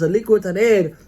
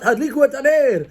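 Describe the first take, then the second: First: Nice calm tone. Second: Sharp, higher barked command to light the candles; harsh order. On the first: Husband gently asking family to light candles, calm and kind. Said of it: "in a nice way". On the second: Husband snapping at family to light candles, harsh bark. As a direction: bark "Hadliku et Haner" like an order. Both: Shown as a demonstration.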